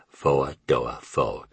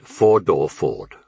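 First: Slow Southern drawl on "four-door Ford"; "four-door Ford" as a languid Southern American drawl, each word drawn out; Southern American accent. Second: Said in the usual way. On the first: Shown as a demonstration. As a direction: stretch "four-door Ford" out slowly, Southern-style, "fo-ah do-ah Fo-ahd". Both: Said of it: "only she pronounced it".

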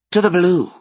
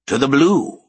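First: Higher, louder chorus reply; echoed toast. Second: Louder solemn toast. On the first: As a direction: answer the toast together. Others echo toast. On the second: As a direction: raise the glass with ceremony. Wizard raises a toast. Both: A narrator's reading.

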